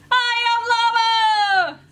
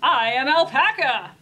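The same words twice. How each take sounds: First: High, loud, drawn-out holler as a llama; Llama character voice. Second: Loud, proud announcement as Alpaca; Alpaca character voice. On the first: Llama introduces himself to Alpaca, high loud character voice. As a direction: belt it out slowly, way up high. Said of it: "said Llama". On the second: Alpaca answers Llama in the story, loud character voice. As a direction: declare it loudly, in character as an alpaca. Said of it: "answered Alpaca". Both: A narrator's reading.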